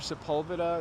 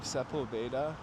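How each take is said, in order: First: The name is said with an English pronunciation. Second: The name is said with a Spanish pronunciation. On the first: This is how locals usually say it. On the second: This is how the Spanish name would be said.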